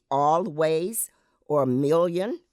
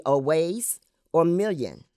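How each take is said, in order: First: Always and million with clear l; L pronounced. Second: Always as aways, l softened; L dropped. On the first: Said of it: "In mainstream American English". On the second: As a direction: say always without l. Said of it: "In African American language". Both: Shown as a demonstration.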